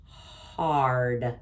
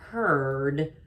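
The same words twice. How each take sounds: First: "hard" said lower with a clear AR sound; corrected word. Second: "heard" said with a plain ER sound; wrong word. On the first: Teacher giving the corrected word "hard". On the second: Teacher contrasting the wrong word "heard". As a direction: say the mistaken "heard" lightly. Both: Shown as a demonstration. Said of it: "Instead of E R".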